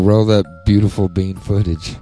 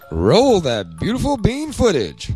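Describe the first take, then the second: First: It is said casually, without much feeling. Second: It is said with emphatic conviction.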